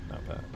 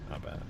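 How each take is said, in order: Both takes have the same delivery.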